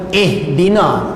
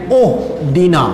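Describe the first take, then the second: First: The word begins with an i vowel. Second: The word begins with a u vowel. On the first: The speaker calls it right. "Sebab itu kita sebut ihdina" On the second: The speaker calls it wrong. "Kita juga tak baca dengan uhdina"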